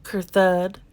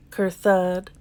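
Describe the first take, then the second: No difference in how they are said.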